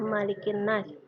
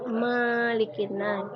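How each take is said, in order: First: The first vowel 'ma' is kept short. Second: The first vowel 'ma' is drawn out long. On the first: The speaker calls it right. "Di huruf ma itu tidak panjang. Kita membacanya seperti biasa" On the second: The speaker calls it wrong. "ibu mendengar anak-anak membaca Malikin Nas"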